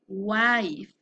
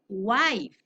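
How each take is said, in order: First: The word ends cleanly on its final consonant. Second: The word ends cleanly on its final consonant.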